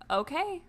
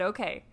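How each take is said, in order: First: "Okay" lifted high at the end, like a question; doubtful rising okay. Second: Said in the usual way. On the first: Retold or imitated. Woman answering his promises, "Okay" rising high in doubt. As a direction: say "Okay" with a sceptical upward swing.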